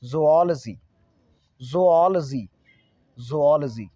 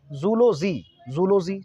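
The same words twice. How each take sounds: First: "ज़ूऑलॉजी" as zo-AWL-uh-ji, swelling on AWL; correct zoology. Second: "जूलॉजी" opening zoo-lo, oo as in zoo; mispronounced zoology. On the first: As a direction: punch the second syllable of "ज़ूऑलॉजी", zo-AWL-uh-ji. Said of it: "जबकि होना चाहिए". ("ज़ूऑलॉजी" का सही उच्चारण, ज़ो-ऑल-जी, "ऑल" पर ज़ोर) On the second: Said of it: "student भी बोल देते हैं जूलॉजी". ("जूलॉजी" का गलत उच्चारण, ज़ू-लो-जी) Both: Shown as a demonstration.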